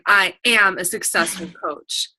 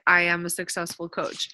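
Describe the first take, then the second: First: It is said powerfully and with certainty. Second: It is said plainly and weakly.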